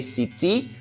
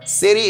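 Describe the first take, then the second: First: It is said with a non-American, British-style 't'. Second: It is said with an American-style 't'.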